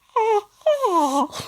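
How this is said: The laugh sounds like a honking goose. The speaker calls it wrong. "But it came out as ha-ha. Am I a fucking goose?"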